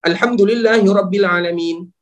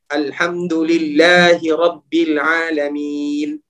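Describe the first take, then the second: First: It is recited quickly with short vowels. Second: It is recited slowly with long vowels. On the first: "Namun kalau seandainya bacaan kita cepat" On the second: "Itu kalau seandainya bacaan kita santai dan sesuai dengan tajwidnya"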